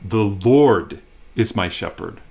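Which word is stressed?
Lord. The stress falls on the word Lord. This particular one, and no other, is the shepherd. "It's him in particular that is my shepherd"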